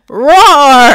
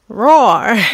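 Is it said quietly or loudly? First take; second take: loudly; quietly. First: It is said more loudly. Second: It is said more quietly.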